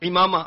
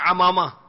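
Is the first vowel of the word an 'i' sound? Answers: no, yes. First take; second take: yes; no. First: The first vowel is an 'i' sound. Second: The first vowel is not an 'i' sound. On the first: The speaker calls it right. "عین کے نیچے زیر ہے" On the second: The speaker calls it wrong. "بعض کہتے ہیں امامہ، امامہ نہیں"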